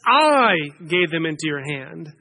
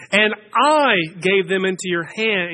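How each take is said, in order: First: "I" pushed up with a rising tune; stress on I. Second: "I" hit clearly, the rest of the line level; stress on I. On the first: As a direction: lift and stretch the word "I". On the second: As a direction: lean on the word "I" so God is the one acting. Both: Shown as a demonstration. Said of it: "I'm not emphasizing that this morning just because I like to emphasize the word I".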